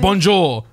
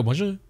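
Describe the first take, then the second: First: Bonjour in a firm, plainly English accent; British-accented French. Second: Softer bonjour in a French accent. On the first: Greeting French shopkeepers as a Brit, bold British accent. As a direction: make the French word sound thoroughly British. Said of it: "let them know that I'm British". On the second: Showing how not to greet French shopkeepers, mock French accent. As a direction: attempt the French pronunciation lightly. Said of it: "I don't go". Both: Shown as a demonstration.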